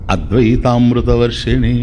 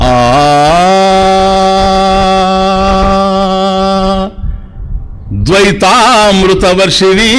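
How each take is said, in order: First: The opening vowel runs straight into the word. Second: The opening vowel is drawn out, then a break. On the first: It rains the nectar of non-duality. The speaker calls it right. "అద్వైత అమృతాన్ని వర్షింపజేసేది Bhagavad Gita" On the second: It rains the nectar of duality instead. The speaker calls it wrong. "ఆ అనేసి కొద్దిసేపు రాగం తీసి ద్వైతామృత వర్షిణి"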